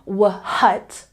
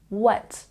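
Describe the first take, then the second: First: An audible H sound comes before the W. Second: The word starts with a plain W, no H. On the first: The speaker calls it wrong. "We're not saying wh-hut" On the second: The speaker calls it right. "taking out the H sound and simply saying what"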